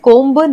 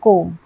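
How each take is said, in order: First: The word ends with a b sound. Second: The word ends without a b sound. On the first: The speaker calls it wrong. "हम इसे कोम्ब नहीं बोलते हैं" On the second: The speaker calls it right. "हम इसे पढ़ते हैं कोम"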